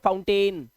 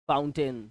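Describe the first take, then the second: First: The last syllable has a full 'ain' vowel. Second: The last syllable is a reduced 'un' sound. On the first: The speaker calls it wrong. "हम इस word को पढ़ लेते हैं" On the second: The speaker calls it right. "इसको हम ए नहीं, इसको अन पढ़ते हैं"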